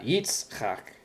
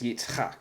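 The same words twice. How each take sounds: First: The stress falls on the first syllable. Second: The stress falls on the last syllable. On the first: The speaker calls it wrong. "it's not Yitzchak" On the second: The speaker calls it right. "it's Yitzchak. The accent is on the last syllable"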